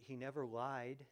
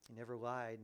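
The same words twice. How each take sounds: First: The word never pushed forward and held; stress on never. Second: The word lied punched, never kept light; stress on lied. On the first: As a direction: lean hard on never, let lied fall away. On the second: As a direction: land the weight on lied. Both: Shown as a demonstration. Repeats phrase with shifting stress.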